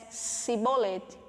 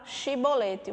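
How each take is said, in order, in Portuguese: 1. A palavra começa com som de s. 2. A palavra começa com som de sh.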